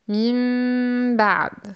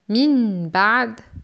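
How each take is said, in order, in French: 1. Le n devient un m nasalisé devant le b. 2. Le n se prononce clairement avant le b. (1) "Mais on dit min ba'd" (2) "c'est idhar ou clarification"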